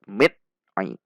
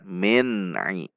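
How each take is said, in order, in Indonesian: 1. N dipotong mendadak dan tersentak. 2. N ditahan sebentar, lalu dilepas dengan halus. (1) "Itu bacaan menghentak" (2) "Namun dibaca min ai"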